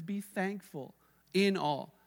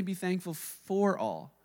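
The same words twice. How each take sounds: First: "in" stressed, said slowly and deliberately. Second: "for" stressed, said slowly as the wrong reading. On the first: Preacher quoting scripture, stressing "in", slowly. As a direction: lean on the word "in". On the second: Preacher contrasting the misreading, stressing "for", slowly. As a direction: lean on the word "for" to show the mistake. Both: Shown as a demonstration. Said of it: "He doesn't say".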